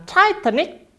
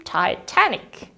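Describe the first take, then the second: First: Titanic stressed on TI; wrong stress. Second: Slow model Titanic, lift and hit TAN; stress on TAN. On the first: Teacher showing wrong Titanic stress to students. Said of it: "Jadi bukan Titanic". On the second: Teacher giving correct Titanic to students. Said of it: "tekankan di T-nya". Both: Shown as a demonstration.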